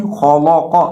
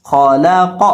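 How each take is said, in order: First: خالا قا with the لام said heavy and thick like خ and ق; wrong heavy lam. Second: خالق with خ and ق heavy but the لام kept thin; the right reading, light لام in the middle of خالق; correct thin lam. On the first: Teacher shows students the wrong heavy لام in خالا قا. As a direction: demo of the common mistake, لام in خالا قا made heavy. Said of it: "اکثر لوگ درمیان والے کو بھی موٹا کر کے پڑھ دیتے ہیں". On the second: Teacher shows students the correct خالق with a thin لام. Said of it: "اس کو ہم پڑھیں گے خالق". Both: Shown as a demonstration.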